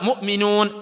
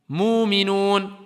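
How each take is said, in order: First: It is pronounced in the Hafs reading. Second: It is pronounced in the Warsh reading. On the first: "dans Hafs, c'est souvent mu'minun" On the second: "dans Warsh, quelquefois, on voit"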